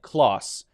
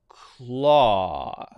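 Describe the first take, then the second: First: It ends with an s sound. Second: It ends with an unvoiced th sound. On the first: The speaker calls it wrong. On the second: The speaker calls it right.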